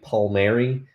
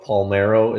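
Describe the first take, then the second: First: The name is said as Pal-mee-EH-ree. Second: The name is said as Pal-MEH-ro. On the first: The speaker calls it right. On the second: The speaker calls it wrong.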